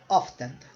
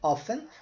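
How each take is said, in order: First: The T sound in the middle is pronounced. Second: The T sound in the middle is silent. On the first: "ou você pode pronunciar com o T" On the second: "Você pode pronunciar sem o T"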